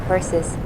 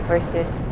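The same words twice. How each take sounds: Both takes have the same delivery.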